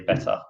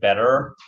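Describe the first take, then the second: First: It is said with a British accent. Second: It is said with an American accent. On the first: "in English uh, accent, we say better" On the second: "in America, they say better"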